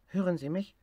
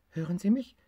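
First: Higher, stress on Hören; calling into the hose: Hören sie mich; tiger on the phone. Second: Higher, stress on mich; asking again, leaning on mich; tiger on the phone. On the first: Tiger tests the garden hose phone, stressing Hören. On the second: Tiger repeats his call, stressing mich. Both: Acted.

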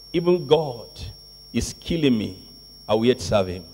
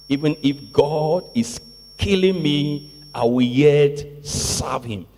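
First: Low, soft, resigned-sounding quote; hushed, low-pitched declaration; quiet vow. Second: Measured vow with weight on "yet"; emphatic vow. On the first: Quotes disciple's vow, first take. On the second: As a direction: stretch "killing me" and "yet serve him" deliberately. Repeats disciple's vow for emphasis. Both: Acted.

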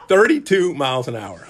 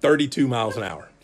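First: Thirty-two punched louder, falling; emphatic repeat. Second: Laughing in disbelief. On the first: Preacher repeating his pitch speed, emphatic and louder. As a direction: hit Thirty-two hard in mock outrage. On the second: Preacher laughing at his own weak pitch. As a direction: chuckle through the number. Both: Real, not acted.

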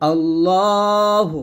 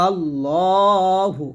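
First: আল্লাহ drawn out, ending on a bare h with no u; the mistaken আল্লাহ, long and stretched; আল্লাহ with no final vowel, the way people wrongly say it; wrong pronunciation. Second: আল্লাহু with a clear final u; আল্লাহু slowly, with the pesh sounded; correct pronunciation. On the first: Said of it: "প্রথম ভুলটা করি, আল্লাহ বলি". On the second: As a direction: say আল্লাহু, ending on hu, not আল্লাহ. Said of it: "উচ্চারণ করতে হবে আল্লাহু". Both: Shown as a demonstration.

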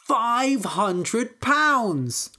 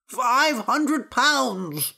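First: High, very slow proud announcement; triumphant boast. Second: High, very slow plaintive offer; anxious priest. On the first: Little Peter boasts to his brother about the price, triumphant. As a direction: stretch out the big reveal gleefully. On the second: Priest in the basket names his ransom, plaintive. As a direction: wail the sum out slowly. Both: A narrator's reading.

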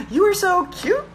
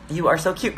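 First: "You are so cute" very high, swooping up on "cute"; hammed-up high questioning "cute"; exaggerated question. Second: "You are so cute" read with a rise on "cute"; "cute" tipped up like a question; questioning tune. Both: Shown as a demonstration. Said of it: "question mark".

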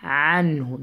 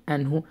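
First: عنه begun with a squeezed mid-throat ع; throat ain. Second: عنه begun with a plain A, no throat sound; wrong ain. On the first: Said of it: "ain from the middle of your throat". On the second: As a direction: replace the ع of عنه with a simple vowel. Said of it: "Do not say". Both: Shown as a demonstration.

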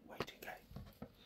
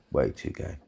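First: Whispered repeat. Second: Said in the usual way. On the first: Real, not acted. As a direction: whisper it under your breath.

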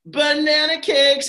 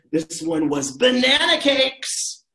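First: "Banana cakes" high, loud and slow; "Banana cakes" stretched, with a big high fall; banana cakes said for kids. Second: "banana cakes" drawn out slowly, high and louder; "banana cakes" stretched with a big fall; banana cakes stressed. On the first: Shown as a demonstration. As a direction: sing out "Banana cakes" for the children to copy. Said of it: "Can you say that?". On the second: Acted. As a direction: lean hard on "banana cakes". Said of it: "playful stress".

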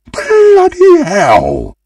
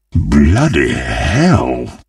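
First: Very high, drawn-out outraged yell; hammy shriek of dismay. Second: Low, very slow, drawn-out curse; heavy, low exclamation of defeat; dejected groan. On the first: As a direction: stretch it into a big high howl. Reacts to losing the game. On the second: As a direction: let it sink down in slow dismay. Second take, dejected. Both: Acted.

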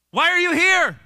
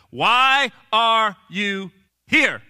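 First: High, raised-voice demand; hammed-up insistent question; loud demanding question. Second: Loud, drawn-out word by word; very slow, pressing demand; slow, emphatic question. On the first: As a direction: call it out as a booming challenge. God's question re-voiced, loudly. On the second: Retold or imitated. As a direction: space out every word with weight.

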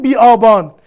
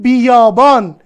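First: بی آبان with آ starting afresh after بی; split, no glide. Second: بیابان run together as bi-yā-bān, loud; joined with y glide. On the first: Teacher showing how we don't pronounce it, split without glide. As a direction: say بی آبان as bi-ābān, without a y sound. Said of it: "ما تلفظ نمی کنیم بی آبان". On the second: Teacher showing how we really say it, joined with glide. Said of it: "میگیم بیابان". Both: Shown as a demonstration.

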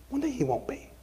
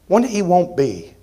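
First: Much softer, almost whispered; quiet whispered echo; hushed repeat. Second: Said in the usual way. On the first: Real, not acted. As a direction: let the promise fall to a hush. Repeated line, hushed second take.

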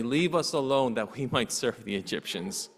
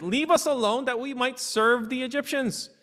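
First: Lower, quieter, chuckling through it; amused correction. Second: High, biting sarcastic whine; sarcastic complaint. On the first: Shown as a demonstration. Preacher correcting the Israelites' claim with a chuckle. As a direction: say it with a little laugh at the absurdity. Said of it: "They did not say". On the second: Retold or imitated. Israelites mocking Moses in a high sarcastic whine. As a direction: sneer it like a bitter joke. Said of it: "it's some sarcasm".

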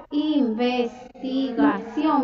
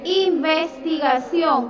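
First: Investigación drawn out even more slowly, each syllable apart; slower dictation. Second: Investigación said slowly and clearly, syllable by syllable; slow dictation. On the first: Teacher repeating the word slowly for a pupil. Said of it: "con V y tilde en la O". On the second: Teacher answering a pupil, dictating slowly. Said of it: "¿cuál es la, la segunda?". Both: Shown as a demonstration.

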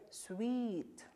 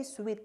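First: Sweet with the ee stretched out long; prolonged sweet. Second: Sweet cut short, ee barely held; clipped sweet. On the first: Teacher correcting students with a long sweet. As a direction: hold the ee in sweet. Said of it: "no, sweet". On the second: Teacher showing students the wrong short sweet. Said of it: "Do not say sweet". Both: Shown as a demonstration.

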